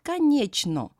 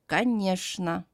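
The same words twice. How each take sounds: First: The middle consonant is a ch sound. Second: The middle consonant is a sh sound. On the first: The speaker calls it wrong. "Not конечно" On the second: The speaker calls it right. "but конечно"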